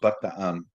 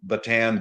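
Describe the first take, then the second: First: It is said with a Filipino-style pronunciation. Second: It is said with an English-style pronunciation.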